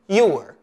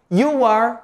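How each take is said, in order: First: It is said as one shorter contracted form. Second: It is said as two full words.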